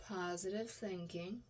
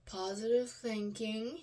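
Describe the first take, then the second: First: Quiet mantra. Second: Slow mantra. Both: Real, not acted.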